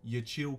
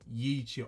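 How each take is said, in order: First: The syllables are run together smoothly. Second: The syllables are pulled apart and emphasized. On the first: "You could probably just say" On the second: "you don't have to go"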